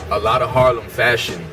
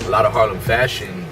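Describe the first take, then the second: No difference in how they are said.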